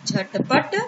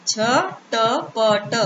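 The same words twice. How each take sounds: First: Said in the usual way. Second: Very slow, झटपट pulled apart as झ-ट-प-ट; split into syllables. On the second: Shown as a demonstration. Teacher sounding out झटपट slowly for children. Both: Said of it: "अब एक साथ मिला के पढ़ते हैं".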